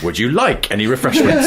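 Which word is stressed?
like. The stress falls on the word "like". "moving the emphasis down the sentence"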